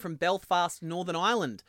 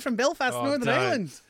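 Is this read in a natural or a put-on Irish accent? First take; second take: natural; put-on Irish. First: It is read in the speaker's normal accent. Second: It is read in a put-on Irish accent.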